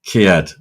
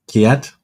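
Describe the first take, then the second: First: Said in the usual way. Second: Puzzled. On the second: Real, not acted. Repeats the word puzzled.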